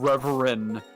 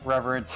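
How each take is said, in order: First: The final T sound is left off. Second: The final T sound is hit very hard. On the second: "we would severely overpronounce the T at the end"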